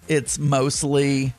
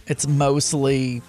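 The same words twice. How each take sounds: The two takes are said the same way.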